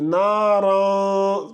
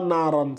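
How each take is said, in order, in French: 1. La nasale finale est cachée et n'est pas clairement prononcée. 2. La nasale finale est prononcée clairement et entièrement. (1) "tu dissimules. Tu ne prononces pas clairement le ran là" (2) "C'est pas naran"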